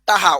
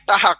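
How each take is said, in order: First: The middle consonant is an h sound. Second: The middle consonant is an h sound.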